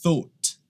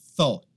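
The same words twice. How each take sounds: First: The vowel is less open. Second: The vowel is more open.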